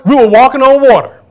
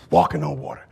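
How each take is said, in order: First: Higher, louder "on water" shouted; preacher belting "walking on water"; loud preaching. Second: Much lower, softer repeat; hushed low echo of the shout; quiet echo. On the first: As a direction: proclaim it high and loud. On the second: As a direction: drop it to a low murmur. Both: Shown as a demonstration.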